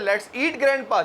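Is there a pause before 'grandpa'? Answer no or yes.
no. It runs straight on with no pause before grandpa. Grandpa is the thing being eaten. "चलो grandpa को खाते हैं"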